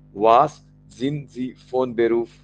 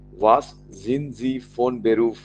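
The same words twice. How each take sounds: The two takes are said the same way.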